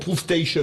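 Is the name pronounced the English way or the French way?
English. The name is pronounced the English way.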